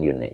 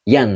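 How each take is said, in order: First: The syllable has a rounded 'u' vowel. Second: The syllable has an open 'a' vowel. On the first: The speaker calls it wrong. "bukan yun" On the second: The speaker calls it right. "Yan bukan yun"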